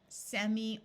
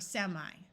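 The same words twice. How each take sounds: First: The final vowel sounds like 'ee'. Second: The final vowel sounds like 'eye'. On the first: "a long E sound" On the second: "a long I sound"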